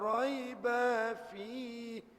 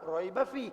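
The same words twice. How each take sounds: First: The vowel after 'b' is drawn out long. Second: The vowel after 'b' is kept short. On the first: The speaker calls it wrong. "dia buah dua harakat pada ba" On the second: The speaker calls it right. "kita baca biasa raiba fi. Ba tu tak panjang"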